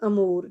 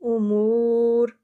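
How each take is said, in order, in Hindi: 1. पहला स्वर खुली 'a' ध्वनि है। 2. पहला स्वर गोल होंठों वाली 'u' ध्वनि है। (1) "अलिफ पे फ़त्ता लगा लेते हैं अमूर नहीं" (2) "हमने पढ़ना उमूर"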